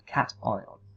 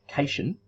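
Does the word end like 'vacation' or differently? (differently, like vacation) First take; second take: differently; like vacation. First: The ending does not sound like vacation. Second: The ending sounds like the end of vacation. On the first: The speaker calls it right. "but we pronounce it cation" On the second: The speaker calls it wrong. "like in location or vacation"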